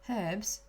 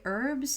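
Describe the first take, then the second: First: It is said in a British accent. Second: It is said in her own accent.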